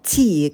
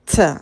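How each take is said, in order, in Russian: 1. Произносится полное алфавитное название буквы. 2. Произносится только согласный звук. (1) "нам нужно всегда по буквам «ти», как в алфавите" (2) "как будто бы вы не букву говорите, а звук «т»"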